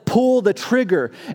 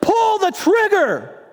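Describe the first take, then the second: First: It is spoken at a louder volume. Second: It is shouted at full volume.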